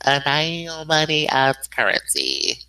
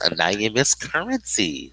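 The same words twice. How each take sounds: First: Drawn-out, slow co-host name; said slowly. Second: Said in the usual way. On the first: Shown as a demonstration. Introducing the co-host after "say it slowly", slowly. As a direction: stretch out each word slowly. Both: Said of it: "Say it slowly".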